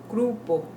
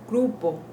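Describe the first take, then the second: No difference in how they are said.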